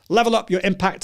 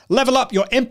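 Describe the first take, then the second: First: It is spoken with moderate, somewhat raised energy. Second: It is spoken loudly with high energy. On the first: It suits talking to a small group. "Number two would be, uh, so I was speaking to a group of five people" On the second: It suits addressing a workshop audience. "I would obviously have to raise the level even more"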